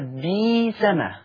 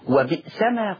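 First: The glottal stop is replaced by a long vowel. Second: A glottal stop is pronounced in the word.

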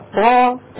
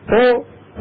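First: The t is followed by an open 'a' vowel. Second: The t ends with a short echoing release. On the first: "هذه طاء مفتوحه" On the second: "هذه طاء مقلقله"

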